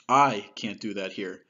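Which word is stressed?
I. The word "I" carries the main stress. The issue is about the person's identity. "let's first put the emphasis on I"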